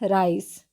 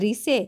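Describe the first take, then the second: First: The first vowel sounds like 'eye'. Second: The first vowel sounds like 'ee'. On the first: The speaker calls it right. "हम इसका उच्चारण करते हैं राइस" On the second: The speaker calls it wrong. "जी नहीं"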